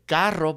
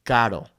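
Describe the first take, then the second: First: "carro" with a trilled R; rolled R demo. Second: "caro" with one light tap; failed rolled R; single tap R. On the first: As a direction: roll the R in "carro". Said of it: "We wanna say". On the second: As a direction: say "caro" without a roll. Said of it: "but we only say". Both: Shown as a demonstration.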